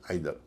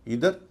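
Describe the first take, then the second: First: आइदर said "EYE-ther"; second accepted pronunciation. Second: इधर said "EE-ther"; first accepted pronunciation. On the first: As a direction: open आइदर with an "eye" sound. (आइदर, शुरू में "आइ" की आवाज़) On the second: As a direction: open इधर with an "ee" vowel. (इधर, शुरू में "ई" की आवाज़) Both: Shown as a demonstration. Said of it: "इसके भी दो उच्चारण हैं".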